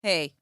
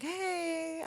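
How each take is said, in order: First: Low, flat, unimpressed hey; wife's icy hey to her husband; cold reply. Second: Soft, higher, timid little hey; mock meek hey from the caught husband; sheepish husband. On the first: Retold or imitated. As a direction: let him know you're mad in one word. Wife answers coldly in retelling. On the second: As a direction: play the guilty husband testing the waters. Wife mimics husband's sheepish call.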